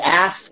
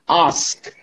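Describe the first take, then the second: First: The word is said in an American accent. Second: The word is said in a British accent. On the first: "An American would say ask" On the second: "a British person would say ask"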